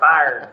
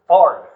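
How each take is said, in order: First: The word is said in a standard accent. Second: The word is said with a southern drawl. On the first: "I can talk normal" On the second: "that's just my southern twang"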